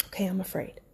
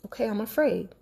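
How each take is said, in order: First: Much softer, almost breathed; barely voiced admission to herself; hushed admission. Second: Quiet, gentle self-admission; hushed admission to herself; soft admission. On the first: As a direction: let it fall to a murmur. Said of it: "I'm admitting to myself that I'm afraid". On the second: Retold or imitated. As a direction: say it softly to yourself. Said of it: "I'm sitting there".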